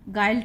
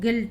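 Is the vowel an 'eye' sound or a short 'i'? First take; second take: eye; short i. First: The vowel is an 'eye' sound. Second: The vowel is a short 'i' sound. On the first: The speaker calls it wrong. "गाइल्ट नहीं पढ़ेंगे इसको" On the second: The speaker calls it right. "इसका जो उच्चारण है वो गिल्ट है"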